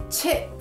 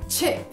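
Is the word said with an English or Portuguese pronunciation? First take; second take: English; English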